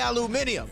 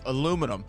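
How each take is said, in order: First: It is said with a British accent. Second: It is said with an American accent.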